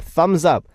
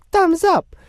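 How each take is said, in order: First: Said in the usual way. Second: Very high, cartoonish squeak; squeaky playful echo. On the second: Host echoes a listener's cheer, playful high squeak. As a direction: chirp it in a silly falsetto.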